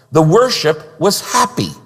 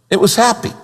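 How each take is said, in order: First: Said in the usual way. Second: "happy" lifted higher with a bright rise; "It was happy" repeated with a rising, beaming "happy"; stress on happy. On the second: Shown as a demonstration. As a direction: land on "happy", pitch going up.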